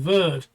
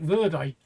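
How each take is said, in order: First: The final vowel is dropped. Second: The final vowel is sounded. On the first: It is the French pronunciation. The speaker calls it wrong. "which is how the French pronounce it, where it's not" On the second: It is the Spanish pronunciation. The speaker calls it right. "the Spanish actually pronounce it verde"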